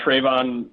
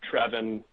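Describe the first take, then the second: First: The first vowel sounds like 'tray'. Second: The first vowel sounds like 'tread'. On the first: The speaker calls it wrong. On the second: The speaker calls it right.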